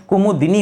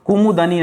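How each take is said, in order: First: कुमुदिनी with a clear short i, kumudini; correct pronunciation. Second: कुमुदनी with a short a in the middle, kumudani; wrong pronunciation. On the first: Teacher gives the correct reading कुमुदिनी with an i sound. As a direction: say कुमुदिनी stressing the di syllable. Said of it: "दिनी हो जाएगा दोस्तों". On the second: Teacher voices the wrong reading कुमुदनी with the a sound. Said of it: "कुमुदनी नहीं". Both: Shown as a demonstration.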